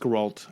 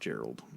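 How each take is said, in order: First: The name ends with a t sound. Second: The name ends with a d sound. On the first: The speaker calls it right. "it's Geralt" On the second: The speaker calls it wrong. "I think you pronounce that Gerald or something like that"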